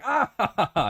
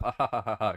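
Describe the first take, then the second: First: High, loud mock laugh; a big put-on "ah, ha, ha, ha"; imitated hearty laughter. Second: Restrained mock laughter at usual pitch; polite, half-hearted "ha, ha"; imitated polite laugh. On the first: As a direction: act out an audience bursting into laughter. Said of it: "people going". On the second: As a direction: fake a dutiful audience chuckle. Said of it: "polite laugh".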